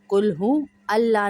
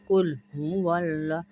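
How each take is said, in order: First: The 'hu' and 'Allah' are said as separate words. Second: The 'hu' runs straight into 'Allah' without a break. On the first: The speaker calls it wrong. "नहीं पढ़ते" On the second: The speaker calls it right. "वाव को लाम से मिलाएंगे"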